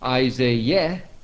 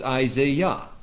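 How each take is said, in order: First: The last syllable sounds like 'yeh'. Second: The last syllable sounds like 'yah'. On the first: The speaker calls it wrong. "it isn't Isaiah" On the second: The speaker calls it right. "but it's Isaiah"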